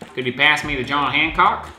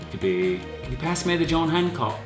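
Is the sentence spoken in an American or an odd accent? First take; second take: American; odd. First: It is spoken in an American accent. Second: It is spoken in an odd, non-American accent. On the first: The speaker calls it right. "I gotta do my American accent" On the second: The speaker calls it wrong. "why did I use a weird accent?"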